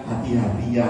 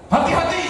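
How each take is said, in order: First: Low, soft-edged caution; calm, low-pitched tender reminder; gentle warning. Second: High-pitched retold warning cry; imitating a wife's sudden yelp; wife's startled cry. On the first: Shown as a demonstration. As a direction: say it gently, as if holding the driver's arm. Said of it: "harusnya dia ngomongnya pelan-pelan". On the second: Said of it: "Istri saya tiba-tiba teriak".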